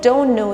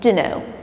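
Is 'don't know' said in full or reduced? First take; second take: full; reduced. First: Don't know is said fully as two words. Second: Don't know is reduced to dunno. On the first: "Instead of" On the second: "you can say"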